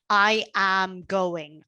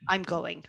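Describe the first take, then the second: First: Both first words are said in full. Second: The first two words are contracted.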